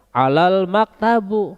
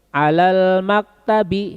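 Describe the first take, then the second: First: The last word ends with a u vowel. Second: The last word ends with an i vowel. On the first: The speaker calls it wrong. "Tidak boleh" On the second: The speaker calls it right. "ini harus kasroh"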